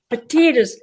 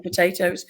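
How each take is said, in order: First: "potatoes" as "puh-TEE-ders", higher, in mock Irish; hammed-up Irish accent on "potatoes", pitched up; Irish-accent attempt. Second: Said in the usual way. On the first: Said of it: "it was the way I said potatoes".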